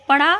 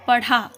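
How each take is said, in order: First: पढ़ा said loud with a flapped ढ़, rising; पढ़ा with the breathy flap ढ़, louder; pronunciation demo. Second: पढ़ा said loud with a hard ड, falling; पढ़ा with a plain stopped ड, falling tune; pronunciation demo. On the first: Teacher demonstrating पढ़ा loudly with the ढ़ sound. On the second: Teacher contrasting the ड sound in पढ़ा for pupils. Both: Shown as a demonstration. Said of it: "शब्दों का उच्चारण कीजिए और इनमें अंतर पहचानिए".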